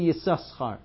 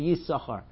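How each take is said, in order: First: The second s sound is clearly pronounced. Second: The second s sound is swallowed and silent. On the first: The immodest meaning of the name is voiced. The speaker calls it wrong. "We don't say Yisachar" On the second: The immodest meaning of the name is hidden. The speaker calls it right. "So we swallow it. We say Yisachar"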